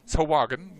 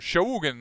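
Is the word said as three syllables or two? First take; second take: three; two. First: It is said longer, like 'sa-hua-gin'. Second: It is said short, like 'shogun'. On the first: This is how it should be said. The speaker calls it right. "I think you should say Sahuagin" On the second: This is how some other people say it. The speaker calls it wrong. "as I sometimes have heard people pronounce it"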